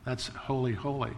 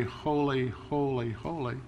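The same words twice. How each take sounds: First: Holy said twice, the second softer and falling; doubled holy, trailing off softer. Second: Three falling holys, each softer, the last much softer; holy tripled, fading to near silence; holy three times. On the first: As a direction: repeat holy, letting the second fade. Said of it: "compare it to something else, it's holier". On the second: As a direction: say holy thrice and let it die away. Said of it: "elevate it to the third degree". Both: Shown as a demonstration.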